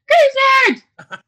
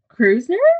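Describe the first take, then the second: First: It is said with loud excitement. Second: It is said flatly, without excitement.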